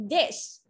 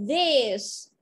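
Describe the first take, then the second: First: "This" with a quick, short vowel. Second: "This" said as "these", long ee; long-vowel plural "these" for "This". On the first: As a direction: keep the i in "This" brief. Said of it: "In ngắn". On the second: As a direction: stretch the vowel of "This" into a falling "theeze". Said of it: "y dài và y ngắn khác nhau". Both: Shown as a demonstration.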